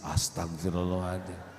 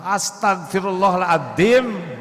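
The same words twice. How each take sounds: First: It is said in a soft, remorseful way. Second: It is said in an angry, emotional way. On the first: The speaker sincerely repents. The speaker calls it right. "Harusnya begitu" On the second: The speaker is annoyed rather than repenting. The speaker calls it wrong. "istighfarnya teh jangan yang emosi"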